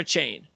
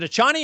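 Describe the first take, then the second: First: The name ends on a single 'chain' syllable. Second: The name ends with an extra 'ee' syllable. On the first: The speaker calls it right. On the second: The speaker calls it wrong. "Is it a Chani or a chain?"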